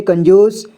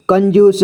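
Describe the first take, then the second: First: Said in the usual way. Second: कंजूस read letter by letter, कं-जू-स; spelled-out reading. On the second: Shown as a demonstration. Teacher showing learners how to read it, sounded out as कं-जू-स. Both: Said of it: "इसे क्या पढ़ेंगे?".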